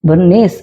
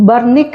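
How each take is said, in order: First: The name ends with an s sound. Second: The name ends with a k sound.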